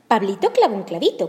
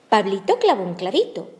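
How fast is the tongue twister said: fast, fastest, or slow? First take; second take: fast; slow. First: It is said at a faster pace. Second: It is said at a slower, ordinary pace. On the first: "tratemos de decirlo más rápido" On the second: "De nuevo"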